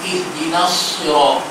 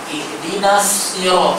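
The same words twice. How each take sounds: First: The s in sirat is a heavy, emphatic s. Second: The s in sirat is a plain, light s. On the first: This follows the speaker's own reading tradition. "huruf sad" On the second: This follows another accepted reading. "sin dibaca sin"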